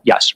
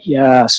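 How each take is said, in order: First: The word is said short and plain. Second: The word is stretched out long. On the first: Nothing seemed odd about the person saying it. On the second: Something seemed odd about the person saying it.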